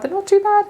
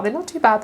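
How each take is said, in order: First: "they're not too bad" jumped way up in pitch; playful high-pitched "they're not too bad"; high squeaky reassurance. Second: Said in the usual way. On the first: Shown as a demonstration. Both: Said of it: "repeats the line".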